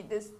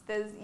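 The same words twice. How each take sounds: Both takes have the same delivery.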